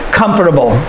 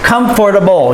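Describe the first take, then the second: First: Part of the word is cut out. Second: Every part of the word is fully said. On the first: The speaker calls it wrong. "We can cut it" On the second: The speaker calls it right. "We can say it the proper way"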